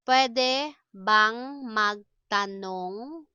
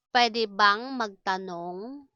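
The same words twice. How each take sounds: First: Very drawn-out, rising at the end; word by word, held syllables; slow teaching model. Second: Said in the usual way. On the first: Shown as a demonstration. Teacher models asking permission for learners, slowly.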